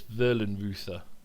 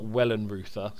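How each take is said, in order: First: The name starts with a V sound. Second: The name starts with a W sound. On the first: The speaker calls it right. "it's got to be pronounced V" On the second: The speaker calls it wrong. "It's not Wellenreuther"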